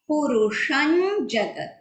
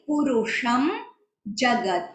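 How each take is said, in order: First: The nasal before jagat is a palatal ny. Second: The nasal before jagat is a plain m. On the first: "होता है पुरुषं जगत" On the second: "so that is why पुरुषम जगत होता है"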